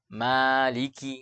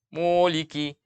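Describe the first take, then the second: First: The first syllable sounds thin and open. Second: The first syllable sounds thick and dark. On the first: The speaker calls it right. "harusnya maliki" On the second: The speaker calls it wrong. "tidak dibaca mu"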